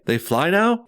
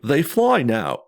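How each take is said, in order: First: An impression of Finn, said as a question. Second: An impression of C-3PO, said as a statement.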